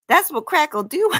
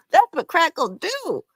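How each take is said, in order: First: Mocking, higher. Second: Mocking repeat, even higher. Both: Real, not acted.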